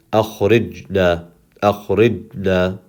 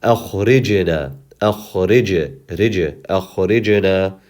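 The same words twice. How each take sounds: First: Slow akhrijna with a swallowed, inaudible j; jim without qalqala. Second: Slow Akhrijna with a bouncing, audible j; qalqala on jim. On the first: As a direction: stop the j dead in akhrijna, no bounce. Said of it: "If we just pronounce the jim second". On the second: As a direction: release the j of akhrij with a tiny echo vowel. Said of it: "there's something called qalqala". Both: Shown as a demonstration.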